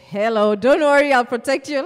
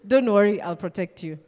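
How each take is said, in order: First: Louder, sure-of-himself promise; confident protector. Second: A hint of a weak guy promising safety; unconvincing protector. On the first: Retold or imitated. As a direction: say it like the strong guy everyone trusts. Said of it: "But when this guy says". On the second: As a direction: say it like a skinny guy nobody would trust. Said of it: "if this guy says".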